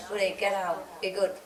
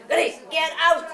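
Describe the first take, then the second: First: Softer, lower gentle command; gentle low coaxing of the dog; soft request. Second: Sharp, higher command to the dog; mild yelled order at the dog; firm command. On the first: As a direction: ask the dog nicely, no force. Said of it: "If I say". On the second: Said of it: "yell at him". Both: Retold or imitated.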